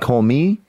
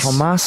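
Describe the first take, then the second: First: The word ends in a vowel with no S. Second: The word ends with an audible S sound. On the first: The speaker calls it right. "and then I'm saying call me" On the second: The speaker calls it wrong. "I think it's pronounced commas"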